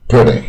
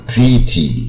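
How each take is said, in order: First: "pretty" with a short lax first vowel; "pretty" said correctly, short first syllable; correct pronunciation. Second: "pretty" wrongly as "pree-tee", long ee; "pretty" with stretched ee vowels; mispronounced. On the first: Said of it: "而不要念成". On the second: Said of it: "这个念错是念一二三四的一". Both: Shown as a demonstration.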